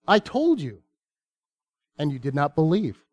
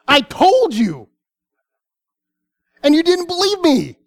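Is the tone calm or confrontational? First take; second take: calm; confrontational. First: It is read in a calm, plain tone. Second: It is said in a confrontational, scolding tone.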